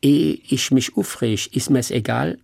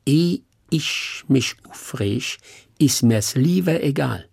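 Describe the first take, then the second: First: Hessian saying without lieber. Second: Very slow Hessian dialect, leaning on lieber; Hessian stress on lieber. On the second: Actor shows the host the proper Hessian saying, lieber stressed. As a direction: drag out the Hessian saying and press hard on lieber. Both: Shown as a demonstration. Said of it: "wär nicht gut".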